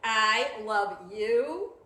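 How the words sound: It sounds really mad and angry.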